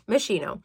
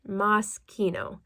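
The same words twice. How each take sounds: First: The name is said with English-style sounds. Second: The name is said with Italian-style sounds. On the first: This is how the speaker usually says it. The speaker calls it wrong. "That's how I say it" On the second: This is the proper pronunciation. The speaker calls it right. "But the proper pronunciation is Moschino"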